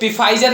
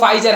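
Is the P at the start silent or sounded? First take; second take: sounded; silent. First: The word begins with a sounded P. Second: The word begins with an F sound. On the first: The speaker calls it wrong. "ये पिफाइजर नहीं है" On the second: The speaker calls it right. "यहाँ पर पी silent होता है, इसका correct pronunciation जो है वो फाइजर है"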